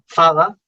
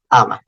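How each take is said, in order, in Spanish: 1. La palabra empieza con sonido de f. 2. La palabra empieza con sonido de vocal. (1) "de cuando en vez de Aba decían Faba" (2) "Ya se vuelve muda la H"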